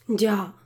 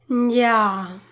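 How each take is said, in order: First: It sounds neutral, like someone simply listening. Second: It sounds skeptical and displeased with the excuse.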